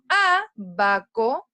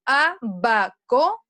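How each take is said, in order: First: "abaco" as long, strong A, then ba-co; slow A-ba-co, first syllable of "abaco" punched; stress on first syllable. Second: "abaco" slowly split, leaning on BA; trial stress placement. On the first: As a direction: hit the opening A of "abaco" and hold it. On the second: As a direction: test "abaco" with a heavy middle syllable, a-BA-co. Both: Shown as a demonstration. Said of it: "enfatizo con mayor intensidad mi voz".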